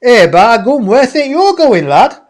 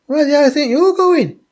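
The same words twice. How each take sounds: First: Loud, high, broad Yorkshire; hammed-up Yorkshire questioning, pitched right up; Yorkshire accent. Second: High, quick mock-indignant question; incredulous friend. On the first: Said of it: "In a Yorkshire accent". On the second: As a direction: imitate the friend, pitched right up and rushed. Retold friend's startled question.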